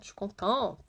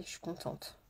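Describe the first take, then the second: First: Said in the usual way. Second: Breathed without voice, very soft; a quiet whispered aside. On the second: Shown as a demonstration. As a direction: say it as a secret whisper. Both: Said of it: "j'ai vraiment passé une très bonne journée".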